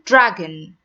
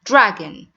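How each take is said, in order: No difference in how they are said.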